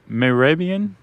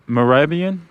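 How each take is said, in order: Both takes have the same delivery.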